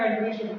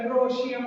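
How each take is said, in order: First: The vowel after 'andr' is an 'ee' sound. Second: The vowel after 'andr' is an 'oh' sound. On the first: "लेकिन सही होगा" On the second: "थोड़ा सा ओ करके"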